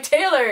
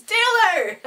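First: Said in the usual way. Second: Much higher, drawn-out imitated call. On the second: Teacher correcting himself to the photographer, calling out. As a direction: call the name out high and loud.

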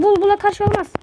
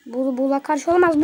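First: Higher and louder, exasperated; raised protest; louder insistent repeat. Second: Said in the usual way. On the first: Real, not acted. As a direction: insist on it the second time.

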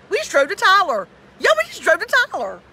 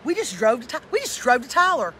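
First: Loud, higher, incredulous; louder exasperated repeat. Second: Said in the usual way. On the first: Real, not acted. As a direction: punch it out louder in disbelief.

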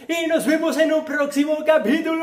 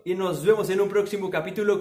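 First: High-pitched, exuberant farewell; high, playful announcer-like send-off; showy sign-off. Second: Said in the usual way. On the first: Pretend. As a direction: sing out the goodbye high and excited.

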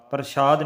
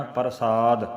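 First: ਪ੍ਰਸ਼ਾਦ with a sh sound; wrong pronunciation. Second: ਪ੍ਰਸਾਦ with a clean s; correct pronunciation. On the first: Teacher showing students the wrong sound. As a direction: say ਪ੍ਰਸ਼ਾਦ with sh, the mistake. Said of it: "ਨਹੀਂ ਕਹਿਣਾ". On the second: Teacher showing students the right sound. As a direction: say ਪ੍ਰਸਾਦ with s, not sh. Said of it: "ਪ੍ਰਸ਼ਾਦ ਨਹੀਂ ਕਹਿਣਾ". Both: Shown as a demonstration.

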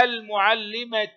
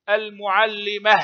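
First: المعلمة as "al-mu'allimatu", t plus u; sounded ta. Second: المعلمة as "al-mu'allimah", ending on h; pausal ha. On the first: Teacher showing pupils connected reading, المعلمة ending "-tu". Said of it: "تنطق تاء في الحركة". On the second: Teacher showing pupils the stop, المعلمة ending in h. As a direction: stop on المعلمة with no t, just "-mah". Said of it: "وهاء عند الوقف". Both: Shown as a demonstration.

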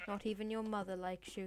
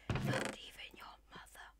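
First: Said in the usual way. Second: Softly whispered jab; taunting whisper. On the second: Pretend. Player insulting Mister Sheep, whispering.

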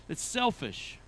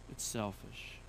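First: Real short laugh into the words; amused admission. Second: Much lower and softer; hushed sober repeat. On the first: Preacher answering why we want pure motives, amused admission. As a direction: say it slowly after a chuckle. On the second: Preacher repeating the admission to the congregation, hushed and sober. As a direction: drop it low and quiet, letting it sink in. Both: Real, not acted.

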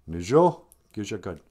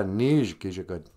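First: "Nijo" said in two syllables, ending in O; Nijo with final O. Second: "Nij" as one syllable, no O before "Gija Good"; Nij without final O. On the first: Host teaching the word for second day, "Nijo" with its final O. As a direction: sound the O at the end of "Nijo", then "Gija Good". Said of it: "you gotta add an O". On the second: Host imitating confused learners, "Nij" missing its final O. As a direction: cut "Nij" off at the j sound, leaving out the O. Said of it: "sometimes people get confused". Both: Shown as a demonstration.

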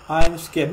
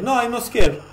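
First: Said in the usual way. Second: Higher, louder protest; defensive, raised-pitch denial; indignant denial. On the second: Real, not acted. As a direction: push back hard against the claim. Denies what game text says.

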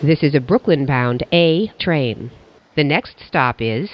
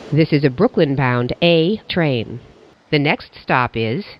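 Both takes have the same delivery.

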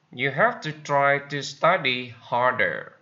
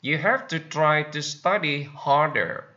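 No difference in how they are said.

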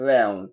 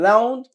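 First: Low American "রাউন্ড" with AE-oo; American accent. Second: British "রাউন্ড" with AH-oo, rising; British accent. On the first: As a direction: drop "রাউন্ড" as RAE-oon. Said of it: "আমেরিকানরা অ্যাও বলে". (American উচ্চারণে) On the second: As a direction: lift "রাউন্ড" as RAH-oon. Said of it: "ব্রিটিশরা আও বলে". (British উচ্চারণে) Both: Shown as a demonstration.

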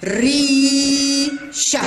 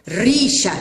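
First: ريشة with a very long ee before a short "sha"; long madd vowel. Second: Said in the usual way. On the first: Shown as a demonstration. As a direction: sound out ريشة slowly, holding the "ي". (نطق ريشة بمدّ طويل للياء) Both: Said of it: "إنه المد بالياء".

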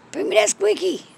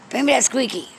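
First: High coaxing. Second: Said in the usual way. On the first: Real, not acted. Owner luring her cat to bring the squeaky, high coax. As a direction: repeat it much higher, pleading.

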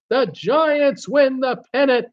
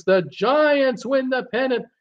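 First: High, slow, leaning on "win"; mock announcer savoring "win"; excited radio call. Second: High excited play-by-play shout; a mock announcer crying out the pennant; excited radio call. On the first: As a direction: stretch out "win" like the famous broadcaster. Same call repeated, slower. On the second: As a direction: call it like the famous broadcast. Famous radio home-run call quoted.

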